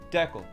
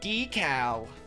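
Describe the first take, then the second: First: The first syllable sounds like 'deck'. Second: The first syllable sounds like 'dee'. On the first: The speaker calls it right. "it sounds better" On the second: The speaker calls it wrong. "Rather than decal"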